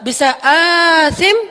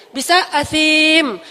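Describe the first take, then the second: First: "athim" with a long first A, stretched slowly. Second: "athim" with the I (ya) held long. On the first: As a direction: draw out the A of "athim". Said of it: "Kalau athim, panjang A-nya". ("athim" dengan A panjang, diucapkan lambat) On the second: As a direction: stretch the ya in "athim". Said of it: "kalau ya-nya yang panjang". ("athim" dengan ya panjang) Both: Shown as a demonstration.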